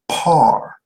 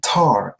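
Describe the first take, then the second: First: The word begins with a p sound. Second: The word begins with a t sound. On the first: It refers to the standard. "if the pronouncer prefers to silence the T, then the pronunciation becomes par" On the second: It refers to blackness. "pronounced tar ... For the P is silent"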